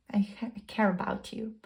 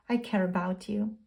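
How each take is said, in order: First: Soft breathy whisper of tender care. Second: Said in the usual way. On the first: Pretend. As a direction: breathe it like a secret confession. Whispered tender confession in message.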